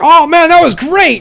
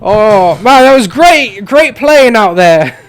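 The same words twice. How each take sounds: First: High, loud attempt at an Aussie coach; cheerful wobbly Australian accent; Australian accent drifting toward Scottish. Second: Retake the line as an Australian coach; Australian accent, second attempt. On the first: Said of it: "I'm trying so hard to do Australian". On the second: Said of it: "I can't do Australian".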